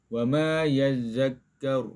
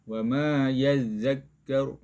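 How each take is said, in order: The two takes are said the same way.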